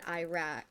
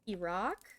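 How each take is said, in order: First: It uses the common American pronunciation. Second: It uses the original, native-like pronunciation. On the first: This is how many people commonly say it. The speaker calls it wrong. "People pronounce it Iraq" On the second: This is how it is supposed to be said. The speaker calls it right. "it's supposed to be Iraq"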